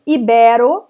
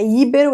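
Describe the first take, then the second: First: Ibero with BE loud and open; stress on BE. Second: Íbero with the beat first, on Í; stress on I. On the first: Teacher giving the correct form, Ibero stressed on BE. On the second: Teacher showing the mistake, íbero stressed on first I. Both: Shown as a demonstration. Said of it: "Não é íbero".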